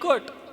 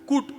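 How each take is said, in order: First: The vowel is a short 'uh' sound. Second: The vowel is a short 'oo' sound. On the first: The speaker calls it right. "सीयूटी कट" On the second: The speaker calls it wrong. "मग सीयूटी कुट नाही"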